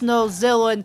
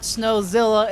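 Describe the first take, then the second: First: The name ends with an 'in' sound. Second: The name ends with an 'ah' sound. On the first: The speaker calls it right. "it's Snowzillin" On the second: The speaker calls it wrong. "I've been mispronouncing his name the entire series. It's not Snowzilla"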